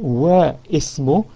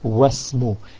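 First: The vowel starting ismu is pronounced separately. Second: The vowel starting ismu is dropped and linked. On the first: The speaker calls it wrong. "instead of saying Wa Ismu" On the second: The speaker calls it right. "we say Wasmu"

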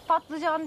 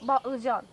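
First: The word begins with a voiceless p sound. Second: The word begins with a voiced b sound.

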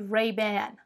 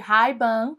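First: It is said with an American English accent. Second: It is said with a Brazilian Portuguese accent. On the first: "lá eles chamam de" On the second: "chama aqui no Brasil de"

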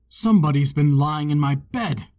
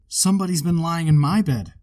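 First: It is said in a great big bear voice. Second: It is said in a middle-sized bear voice.

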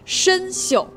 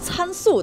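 First: It is pronounced shen xiu. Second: It is pronounced can su. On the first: The speaker calls it right. "大家注意我的发音啊" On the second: The speaker calls it wrong. "我还真见过有人把它读成参宿的，念错过的偷偷扣个一"

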